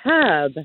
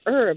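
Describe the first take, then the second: First: The word begins with an audible H sound. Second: The word begins with no H sound. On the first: The speaker calls it right. "It has an H and it's herb" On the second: The speaker calls it wrong. "but everybody says herb"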